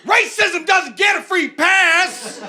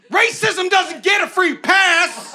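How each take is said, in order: First: High, slow shouted slogan with a laugh; bus slogan again. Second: High, slow announcing shout; bus sign slogan. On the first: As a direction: bellow it through laughter like the whole bus. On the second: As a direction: blare it like a bus display slogan. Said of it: "one for me that goes". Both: Retold or imitated.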